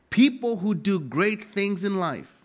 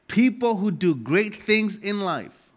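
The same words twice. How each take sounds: The two takes are said the same way.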